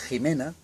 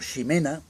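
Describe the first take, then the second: First: The name starts with a harsh throaty h. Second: The name starts with a soft sh sound. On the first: This is the modern form of the name. "se convirtió en J" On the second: This is the older form of the name. "el sonido shi, la X"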